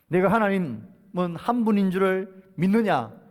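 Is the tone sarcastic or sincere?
sarcastic. It is read in a mocking, sarcastic tone. Believing this alone is not enough. The speaker calls it right. "이 말을 이렇게 읽어야 됩니다"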